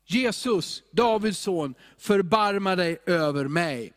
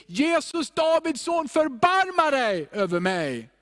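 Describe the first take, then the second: First: Mildly raised call for mercy; understated plea, called out while reading. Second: High, urgent call for mercy; acted beggar's shout, pitched way up; full-voiced cry. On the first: Acted. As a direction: read it as a restrained cry to Jesus. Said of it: "började han ropa". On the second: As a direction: cry out to be heard through a crowd. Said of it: "det rop som kom ur en full röst".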